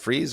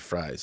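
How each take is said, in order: First: The vowel sounds like the ee in please. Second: The vowel sounds like the eye in prize. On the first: "Am I saying that right? Freeze or Fries?" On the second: "Am I saying that right? Freeze or Fries?"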